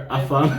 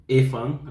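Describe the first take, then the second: First: Afang said with an open "ah" at the start; afang, clear "ah-fang", careful correction; corrected pronunciation. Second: Afang said as "efang", with an e-sound at the start; afang, first vowel like "eh", then corrected; mispronounced. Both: Real, not acted. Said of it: "I'm sorry, afang".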